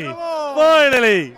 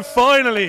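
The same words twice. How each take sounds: First: Slow, higher, relieved Finally; long relieved sigh of a word; drawn-out finally. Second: Said in the usual way. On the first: Real, not acted. Relief after long wait.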